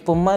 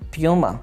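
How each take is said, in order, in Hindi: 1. पहला अक्षर 'poo' जैसा सुनाई देता है। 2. पहला अक्षर 'pyoo' जैसा सुनाई देता है। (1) "ये पुमा लफ्ज़ नहीं है" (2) "बल्कि प्यूमा"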